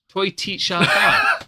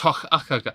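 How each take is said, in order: First: The name is read out like English words. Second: The name is said with a Gaelic pronunciation. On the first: The speaker misread the name at first. The speaker calls it wrong. "I remember seeing Storada going, "What?" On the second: This is how the name is actually said. The speaker calls it right. "and then I find it's"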